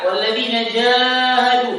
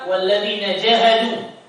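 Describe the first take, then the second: First: The vowel after j is held long. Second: The vowel after j is kept short. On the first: The speaker calls it right. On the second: The speaker calls it wrong. "Allah tidak katakan"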